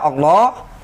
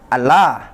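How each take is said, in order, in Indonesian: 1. L ganda ini tebal dan berat. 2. L ganda ini tipis dan ringan. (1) "Tapi dibaca Allah, kenapa? Dalam rangka ta'ziman" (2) "kalau tanpa dibaca tebal"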